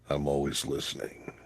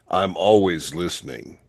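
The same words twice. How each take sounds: First: It is said in a heavy, deep, creepy voice. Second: It is said in a lighter, less heavy voice. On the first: It sounds creepy. "say I'm always listening with a heavy voice" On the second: It sounds less creepy. "I can do it like this"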